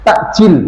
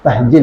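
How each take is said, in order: First: The middle consonant is a stop-like catch. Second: The middle consonant is a breathy h sound. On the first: The speaker calls it right. "Yaitu takjil" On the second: The speaker calls it wrong. "bukan tahjil ya"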